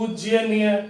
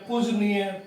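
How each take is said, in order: First: The word is said with a 'jy' cluster. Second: The word is said with a plain 'j'. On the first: The speaker calls it wrong. "पूज्यनीय शब्द नहीं होता" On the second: The speaker calls it right. "सही शब्द तो पूजनीय है"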